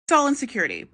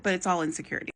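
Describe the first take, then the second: First: Said in the usual way. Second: "it's all insecurity" said softer, falling away; softer repeat. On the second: Shown as a demonstration. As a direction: repeat it quietly to yourself. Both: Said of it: "I mean, it doesn't excuse it".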